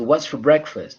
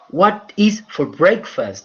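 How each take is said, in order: First: 'What is' is contracted into one syllable. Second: 'What is' is said as two full words. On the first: The speaker calls it right. "It's what's for breakfast" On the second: The speaker calls it wrong. "It's not what is for breakfast. That's not the pronunciation"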